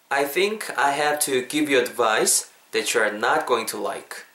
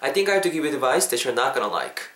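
First: The sentence is said slowly and carefully. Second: The sentence is said at natural, connected speed.

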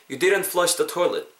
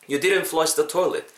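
The two takes are said the same way.

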